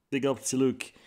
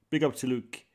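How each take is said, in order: Both takes have the same delivery.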